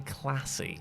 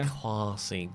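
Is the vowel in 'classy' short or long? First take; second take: short; long. First: The first vowel is short, as in 'cat'. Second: The first vowel is long, as in 'father'. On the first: "I don't say classy" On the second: "That's because you're posh"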